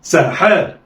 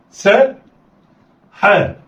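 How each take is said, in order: First: "ساحاء" joined in one quick go; snatch "ساحاء" with no pause; snatched together. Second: "سا" raised, pause, then "حاء"; letters sounded apart. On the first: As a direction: blend "ساحاء" like one word. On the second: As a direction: say "سا" and "حاء" as separate syllables. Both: Shown as a demonstration. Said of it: "يلا، اخطف".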